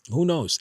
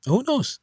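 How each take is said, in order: First: Said in the usual way. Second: "Who knows?" jumping much higher, rising on "knows"; incredulous high "Who knows?"; high rhetorical question. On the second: Real, not acted.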